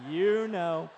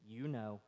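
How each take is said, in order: First: Said in the usual way. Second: Low, soft, sly "You know" under the breath; knowing punchline. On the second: Acted. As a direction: let the parrot hint "You know" quietly and slyly.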